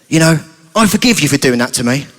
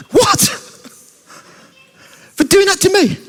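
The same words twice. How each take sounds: First: Low, calm, forgiving voice; understated, earnest acted forgiveness; sincere forgiveness. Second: Very high, incredulous squeak; hammed-up outraged surprise; indignant disbelief. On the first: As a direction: forgive them evenly, pitch kept down. Sheldon calmly forgives Chucky. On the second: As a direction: throw it back in high-pitched astonishment. Chucky incredulous at being forgiven.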